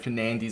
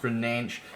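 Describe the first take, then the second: First: The name is said with English sounds. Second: The name is said with Portuguese sounds. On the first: The speaker calls it wrong. "how I would usually pronounce it" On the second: The speaker calls it right. "is pronounced"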